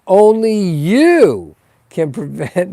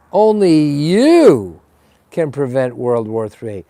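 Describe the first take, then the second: First: Slow, stressed "you" with a rising lilt; a hint of the PSA announcer; Smokey the Bear slogan. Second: Lightly voiced Smokey slogan, slow and leaning on you; a hint of the public service announcer; Smokey the Bear slogan. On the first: To the viewers, a mock Smokey the Bear warning, lightly voiced. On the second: To the viewers, a mock Smokey the Bear guilt-trip, lightly voiced. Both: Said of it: "now I'm using the Smokey the Bear".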